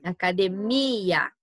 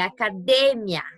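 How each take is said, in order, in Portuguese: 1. A tônica cai na sílaba mi. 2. A tônica cai na sílaba de. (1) "em português, ó, a gente tem no mi" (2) "Em espanhol, essa tônica tá no D"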